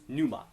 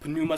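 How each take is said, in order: First: The word starts with an n sound, no p. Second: The word starts with a p then n. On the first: This is the usual English way of saying it. "we don't really like doing the p n sound, so many people will call this just pneuma" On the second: This is how the Greeks would say it. "I like to say both consonants because that's how the Greeks would do it"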